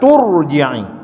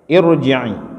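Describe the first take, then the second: First: The opening vowel drops, joined to the previous word. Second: The word starts with its own 'i' vowel. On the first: The word is joined to the words before it. "Tidak lagi dibaca tu irji'i, tapi disambung terus" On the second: Reading starts at this word. "Kalau kita baca di sini dia boleh dibaca i"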